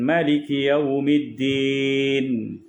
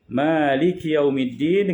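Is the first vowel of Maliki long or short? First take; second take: short; long. First: The first vowel of Maliki is short. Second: The first vowel of Maliki is long. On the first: "bidunil alif, tak ada alif" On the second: "Yang pertama dengan mad, iaitu Malik ... dengan alif"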